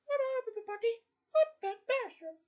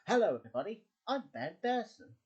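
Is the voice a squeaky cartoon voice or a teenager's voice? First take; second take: cartoon voice; teenager's voice. First: It is a squeaky child voice like Mickey Mouse. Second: It is an older teenager's voice.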